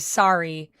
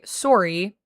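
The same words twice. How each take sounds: First: The first vowel is an open A sound. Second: The first vowel is a rounded O sound. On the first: "And in America, most people say sorry" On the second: "in Canada, we say sorry, like sore"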